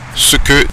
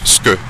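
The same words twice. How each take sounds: First: Both syllables are pronounced fully with their vowels. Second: A vowel is dropped and the syllables merge. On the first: "ce que devient" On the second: "devient ce que"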